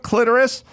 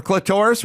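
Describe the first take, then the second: First: "clitoris" as "CLIT-er-is"; first-syllable stress. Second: "clitoris" as "cli-TOR-is"; second-syllable stress. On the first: Imagining someone looking it up, "clitoris" as "CLIT-er-is". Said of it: "or clitoris". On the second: Offering the alternative to look up, "clitoris" as "cli-TOR-is". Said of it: "looking up clitoris". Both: Shown as a demonstration.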